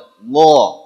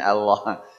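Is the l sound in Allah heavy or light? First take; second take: heavy; light. First: The l is heavy and full. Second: The l is light and thin. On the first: The speaker calls it right. "itulah tafkhim" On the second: The speaker calls it wrong. "cawerang gitu kata kita ... Dan yang Allah tadi tipis"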